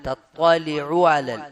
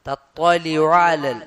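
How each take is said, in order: The two takes are said the same way.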